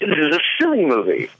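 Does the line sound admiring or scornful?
admiring. It is said in an admiring way.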